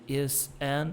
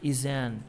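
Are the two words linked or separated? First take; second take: separated; linked. First: The two words are said separately. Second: The s sound links into the next vowel. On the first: The speaker calls it wrong. "ao invés de is an" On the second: The speaker calls it right. "o S aqui junta no som de vogal"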